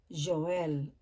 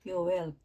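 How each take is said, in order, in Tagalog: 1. Nagsisimula ang pangalan sa tunog na J. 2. Nagsisimula ang pangalan sa tunog na Y. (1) "Pero po sa English" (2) "kung babasahin talaga ito sa Hebrew ay Yoel"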